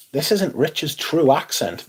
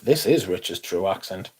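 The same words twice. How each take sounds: First: Slow, exaggerated put-on Northern English accent; a mock Northern English voice, drawn out. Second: His own Northumbrian accent, lower and softer. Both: Shown as a demonstration.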